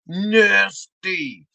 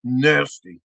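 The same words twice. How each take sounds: First: "Nasty" stretched over both syllables; drawn-out disgust. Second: Low, quick "Nasty"; disgusted verdict. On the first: Comic repeating the sauce verdict, long-drawn disgust. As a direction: draw out "Nasty" slowly, letting it fall. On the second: Comic judging the special sauce, low disgust. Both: Acted.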